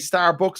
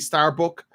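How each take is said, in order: First: The word ends with an s sound. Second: The word ends without an s sound. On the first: "They can't say star say Starbucks" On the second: "They say Starbuck"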